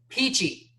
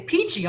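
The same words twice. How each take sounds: First: It is said in an irritated, menacing tone. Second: It is said in a cheerful, upbeat tone. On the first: The listener should stop talking right now. "it means you need to stop talking to me right now or I might murder you" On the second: The speaker is doing great. "You can just express with inflection how you are. Like if I say peachy, I'm doing great"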